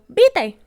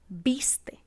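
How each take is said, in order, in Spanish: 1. La s del medio no se pronuncia. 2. La s del medio sí se pronuncia. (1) "por no pronunciar ciertas consonantes intermedias" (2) "en vez de decir viste"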